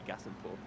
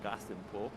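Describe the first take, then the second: First: Said in the usual way. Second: "Glastonbury" with a throaty first G; guttural G starting "Glastonbury", said low and soft; back-of-the-throat G. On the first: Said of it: "or it just might be". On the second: Shown as a demonstration. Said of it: "a back of the throat G".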